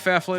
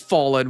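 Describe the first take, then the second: First: The name is said with an extra f sound. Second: The name is said with no extra f sound. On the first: The speaker calls it wrong. "Am I literally mispronouncing?" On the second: The speaker calls it right. "It is Fallen"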